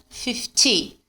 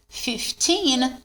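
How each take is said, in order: First: "fifty" with a short, dry "ty"; "fifty" with a brief falling ending. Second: Put-on "Fifteen" with long, stressed "teen"; "Fifteen" with its ending held. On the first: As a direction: end "fifty" quickly on "tee", no n. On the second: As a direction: lean on the second syllable of "Fifteen", sounding the n. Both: Shown as a demonstration. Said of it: "a diferença na pronúncia".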